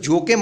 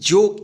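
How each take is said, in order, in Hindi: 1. शब्द के अंत में एक अतिरिक्त e स्वर ध्वनि है। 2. शब्द के अंत में कोई स्वर ध्वनि नहीं है।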